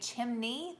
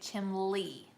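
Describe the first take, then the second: First: The middle consonant is an 'n' sound. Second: The middle consonant is an 'l' sound. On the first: "some people around here don't say chimney" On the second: "They say chimley"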